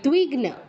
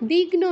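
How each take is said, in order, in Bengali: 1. শব্দটি dw দিয়ে শুরু হয়। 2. শব্দটি সাধারণ d দিয়ে শুরু হয়। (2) "দিগ্ন নয়"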